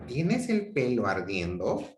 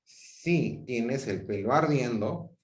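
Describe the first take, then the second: First: Rising question tune; genuinely asking, voice rising. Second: Said in the usual way. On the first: Shown as a demonstration. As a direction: ask it, lifting at the end. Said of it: "una actitud interrogativa". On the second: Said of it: "yo expresaba una actitud enunciativa".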